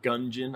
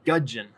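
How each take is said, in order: First: An n sound comes before the j sound. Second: No n sound comes before the j sound. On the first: The speaker calls it wrong. "I didn't say gungeon, like gun with a glass of gin" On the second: The speaker calls it right. "I said gudgeon"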